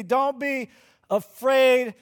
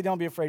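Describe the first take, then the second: First: A mild, raised reassuring call of don't be afraid. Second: Said in the usual way. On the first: Retold or imitated. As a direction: call it across the water, a touch louder on afraid. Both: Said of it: "But he doesn't just say".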